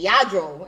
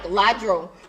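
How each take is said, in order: First: The name begins with a Y sound. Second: The name begins with a clear L sound. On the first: This is how the artist says it in his music. "I hear you saying Yadro" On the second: This is how the name reads from its spelling. "I'm looking at it and I'm like Ladro"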